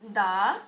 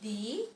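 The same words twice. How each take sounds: First: The vowel is a short, weak 'uh' sound. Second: The vowel is a long 'ee' sound. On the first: The next word starts with a consonant. "the word cat and cow starts with consonant. That's why the pronunciation is da" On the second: The next word starts with a vowel. "Here the pronunciation of the word T H E is the"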